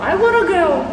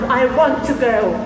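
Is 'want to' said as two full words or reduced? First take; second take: reduced; full. First: Want and to merge into one reduced word. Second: Want and to are said as separate full words. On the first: "в Америке они говорят I wanna go" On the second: "Есть want"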